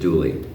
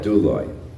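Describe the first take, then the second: First: The word ends with an 'ee' sound. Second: The word ends with an 'oy' sound. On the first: This is the modern Greek pronunciation. "modern Greek probably pronounces it douli" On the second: This is the pronunciation taught in seminaries. "the stuff they teach you in seminaries, and they would call that douloi"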